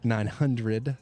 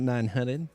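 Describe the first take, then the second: First: Each word is pronounced clearly and carefully. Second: It is spoken with a Southern drawl. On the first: "See how I enunciated that?" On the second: "sometimes a little South Carolina comes out"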